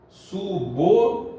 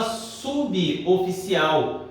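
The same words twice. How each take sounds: First: "Suboficial" syllable by syllable, su-bo-fi-ci-al; correct pronunciation. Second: "suboficial" slowly as su-bi-o-fi-ci-al; common pronunciation. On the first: Teacher gives the correct form, "Suboficial" as separate su-bo-fi-ci-al. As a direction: join b to o in "Suboficial", with pauses. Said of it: "a pronúncia correta é subo". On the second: Teacher quotes how people say it, "suboficial" as subi-oficial. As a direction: add an i after b in "suboficial". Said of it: "A gente fala". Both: Shown as a demonstration.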